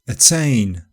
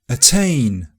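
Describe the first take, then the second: Both takes have the same delivery.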